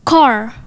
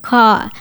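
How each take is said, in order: First: "car" with the final R clearly sounded; American rhotic R. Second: "car" as a long "cah", final R silent; British non-rhotic. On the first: Co-host giving an American example, "car" with clear final R. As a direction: say "car" the American way, ending on an audible R. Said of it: "the letter R is clearly pronounced". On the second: Host demonstrating British accent, "car" without the R. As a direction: drop the R at the end of "car". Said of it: "kalau di British nyebutin kata itu". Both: Shown as a demonstration.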